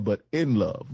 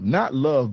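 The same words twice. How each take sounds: First: "in" leaned on in "but in love"; stress on IN. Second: Said in the usual way. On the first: Shown as a demonstration. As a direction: press the word "in" before "love". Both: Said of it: "not love, but in love".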